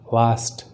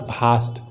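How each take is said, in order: First: The word starts with a v sound. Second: The word starts with a breathy b sound. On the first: The speaker calls it right. "इट्स वास्ट" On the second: The speaker calls it wrong. "It's not भास्ट"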